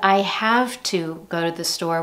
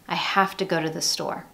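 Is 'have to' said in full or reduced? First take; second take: full; reduced. First: The words 'have to' are said fully. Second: The words 'have to' blend with a schwa. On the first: "Instead of I have to go to the store" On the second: "we have that schwa"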